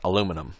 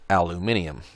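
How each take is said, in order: First: The word is said with an American pronunciation. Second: The word is said with a British pronunciation. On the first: "Americans pronounce that aluminum" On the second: "my British friends pronounce it aluminium"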